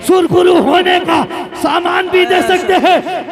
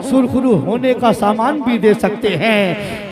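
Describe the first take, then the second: First: Slow, high, loud declamation; shouted verse recitation. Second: Measured verse recitation. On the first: Preacher repeating the verse to rouse the gathering, shouted recitation. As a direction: belt the line out slowly, ending on a rise. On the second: Preacher introducing a line of verse, measured recitation. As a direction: draw the line out, easing down to a falling end. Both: Real, not acted.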